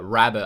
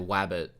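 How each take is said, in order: First: The word begins with a clear R sound. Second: The word begins with a W sound.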